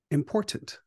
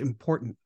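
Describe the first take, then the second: First: The first T is clearly pronounced. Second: The first T is dropped or swallowed. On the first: The speaker calls it right. "I love enunciation now" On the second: The speaker calls it wrong. "They'll end that first T"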